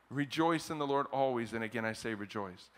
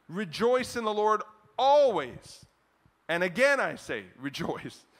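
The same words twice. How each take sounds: First: Said in the usual way. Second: Loud, exultant scripture proclamation with a long ALWAYS; emphatic. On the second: Shown as a demonstration. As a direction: proclaim it slowly, punching REJOICE and ALWAYS. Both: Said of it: "I don't know, for emphasis".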